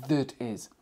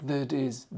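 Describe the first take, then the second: The two takes are said the same way.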